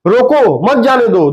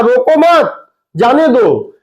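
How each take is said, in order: First: "रोको" on its own, then "मत जाने दो" together; pause after रोको. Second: "रोको मत" as one command, pause, then "जाने दो"; pause after मत. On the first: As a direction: split off "रोको" as a separate command. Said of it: "एक कह रहा है कि". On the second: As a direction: join "मत" onto "रोको", break before "जाने दो". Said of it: "दूसरा कह रहा है". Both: Shown as a demonstration.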